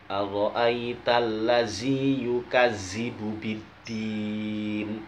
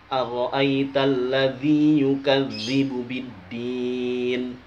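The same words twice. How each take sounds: First: The consonant in 'ladzi' is a plain 'z' sound. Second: The consonant in 'ladzi' is a soft 'th' sound. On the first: The speaker calls it wrong. "Zal dibaca za" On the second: The speaker calls it right. "di tulisan Arabnya"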